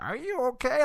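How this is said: It is said in a witch voice.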